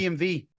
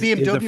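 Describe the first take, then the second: First: The last letter is said as V. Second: The last letter is said as W. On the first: The speaker calls it right. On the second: The speaker calls it wrong.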